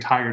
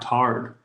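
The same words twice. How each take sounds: First: The word is said in a plain general accent. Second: The word is said in a Southern US accent. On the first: "They don't say tired" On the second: "That's how they say it in the South"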